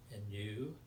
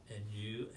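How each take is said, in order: Both takes have the same delivery.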